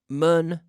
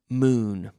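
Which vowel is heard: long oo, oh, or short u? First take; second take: short u; long oo. First: The vowel is a short u sound. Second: The vowel is a long oo sound. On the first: The speaker calls it wrong. "Not mun" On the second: The speaker calls it right.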